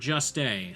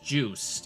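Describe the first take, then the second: First: The name is said with an extra final vowel. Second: The name is said with a long 'oo' vowel. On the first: The speaker calls it wrong. "or just a" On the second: The speaker calls it right. "it's pronounced Joost"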